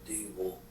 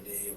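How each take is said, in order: First: The word ends with an 'o' vowel. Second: The word ends on the consonant, no vowel. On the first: This is the Bengali form. "in Bengal it'd be Acharya Dable" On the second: This is the Hindi form. "In the Hindi, they drop a short A, like Acharya Dev"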